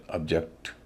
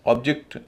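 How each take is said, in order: First: object as ub-JEKT, second part stressed; verb pronunciation. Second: object as OB-jekt, first part stressed; noun pronunciation. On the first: Teacher giving the verb form, object stressed last. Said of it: "verb के मामले में अलग हो जाता है". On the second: Teacher giving the noun form, object stressed first. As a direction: hit the opening of object. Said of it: "noun के मामले में उच्चारण अलग". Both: Shown as a demonstration.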